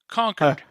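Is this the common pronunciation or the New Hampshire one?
New Hampshire. It uses the local New Hampshire pronunciation. This is how locals in the state say it. "you know how we pronounce it in New Hampshire?"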